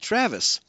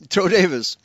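First: The name has a 'tr' sound in the middle. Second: The 'tr' sound is replaced by a 'd' sound. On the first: "call me Travis" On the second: "their mouths are not used to making a TR sound, so my name became Toe Davis"

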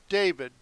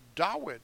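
First: The middle consonant is a v sound. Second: The middle consonant is a w sound. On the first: The speaker calls it wrong. "Not David" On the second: The speaker calls it right. "With a waw. I pronounce it correctly"

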